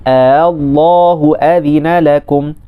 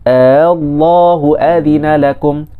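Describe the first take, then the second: The two takes are said the same way.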